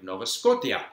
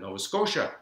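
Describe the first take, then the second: First: It is pronounced with Czech letter values. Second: It is pronounced the usual English way. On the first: The speaker calls it wrong. "My father used to say" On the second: The speaker calls it right. "instead of"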